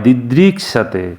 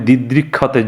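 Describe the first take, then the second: First: The cluster is sounded with an s sound. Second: The cluster is sounded with a kh sound. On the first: The speaker calls it right. "সঠিক উচ্চারণটা স হয়" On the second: The speaker calls it wrong. "তোমরা হয়তো ভাববে দিদৃক ক্ষতে যুক্ত খ আছে, তা না"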